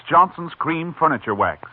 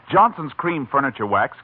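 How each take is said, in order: Both takes have the same delivery.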